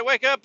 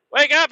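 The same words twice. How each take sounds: First: High calling wake up. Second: Very high, loud yell; drunk yell. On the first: To the sleeping family, a high calling out. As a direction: sing it out to the tents. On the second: Drunk to his Jesus freak family, a very high loud yell. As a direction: bellow it at the tents. Waking family, louder still. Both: Retold or imitated.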